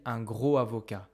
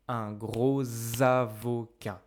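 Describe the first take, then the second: First: Gros and avocat have no linking consonant. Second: A z sound links gros to avocat. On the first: The speaker calls it wrong. "I cannot say un gros avocat" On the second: The speaker calls it right. "I must say un gros avocat"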